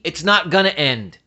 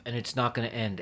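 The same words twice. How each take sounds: First: Firm, slightly raised retort; retold yell at TV. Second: Soft, worn-out retelling of the nurse; tired nurse quote. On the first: Talking back to the nurse on TV, a mild mock yell. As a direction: fire it back at the screen. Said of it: "I yelled at the T V". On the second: Retold or imitated. Nurse on TV saying it won't end, a quiet tired echo. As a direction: echo her exhaustion quietly. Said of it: "She said".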